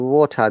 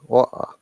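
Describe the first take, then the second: First: The middle T is pronounced. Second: The middle T is dropped. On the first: "We say water" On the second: "No T, no R"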